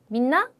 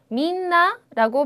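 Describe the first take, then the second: First: The word is cut short into two beats. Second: The word is held out over three beats. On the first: The speaker calls it wrong. "이렇게 짧게 이 박으로 끝내버리는" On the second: The speaker calls it right. "민나라고 발음을 하지 않고"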